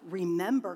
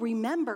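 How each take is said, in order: First: The pitch falls at the end, like a command. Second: The pitch rises at the end, like a question. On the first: It orders the listener to recall something. The speaker calls it right. "It's like, remember, command" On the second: It asks whether the listener recalls something. The speaker calls it wrong. "this is not, oh, remember, question mark"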